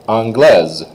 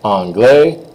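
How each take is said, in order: First: Falling anglaise with a Z ending. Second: Rising anglais with no final S; silent S. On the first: Teacher models the next girl form, Z sounded in anglaise. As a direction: close anglaise on a clear Z. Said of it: "you do say those S's as a Z sound". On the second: Teacher models the next boy form, S silent in anglais. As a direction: end anglais on the open vowel. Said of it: "you don't say the S at all". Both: Shown as a demonstration.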